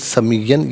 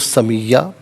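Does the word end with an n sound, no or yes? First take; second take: yes; no. First: The word ends with a final n sound. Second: The word ends on a vowel, without n. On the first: The reading continues without stopping. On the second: The reader stops at this word.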